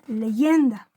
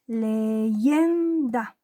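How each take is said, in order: First: Said in the usual way. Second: "leyenda" drawn out syllable by syllable, leaning on "yen"; stress on penultimate syllable. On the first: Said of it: "En el caso de la palabra". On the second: Shown as a demonstration. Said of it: "dónde está la sílaba tónica". ("leyenda" por sílabas, con golpe de voz en "yen")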